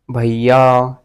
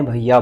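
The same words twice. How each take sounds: First: भैया with the final vowel stretched long; drawn-out bhaiya. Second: Said in the usual way. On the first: Shown as a demonstration. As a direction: hold the last आ of भैया. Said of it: "ऐसे लंबा खींच लूँ". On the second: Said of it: "भैया को मैं क्या बोल सकता हूँ".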